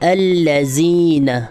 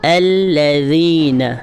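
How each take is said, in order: First: The middle consonant is a hard, hissing z. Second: The middle consonant is a soft th sound. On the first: The speaker calls it wrong. "लोग इसको क्या पढ़ देते हैं, वो पढ़ते हैं अल्लज़ीन" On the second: The speaker calls it right. "ज़बान की नोक है वो थोड़ी सी दांतों से हल्की सी बाहर आएगी"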